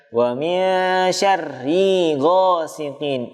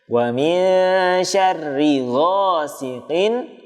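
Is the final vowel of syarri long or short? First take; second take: long; short. First: The final vowel of syarri is drawn out long. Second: The final vowel of syarri is kept short. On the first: The speaker calls it wrong. "ri-nya dibaca panjang" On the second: The speaker calls it right. "Syarri tidak dibaca panjang"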